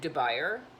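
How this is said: The name is said with an English pronunciation. "It just looks like Dubuyer, for those of you who don't want to bother pronouncing it in French"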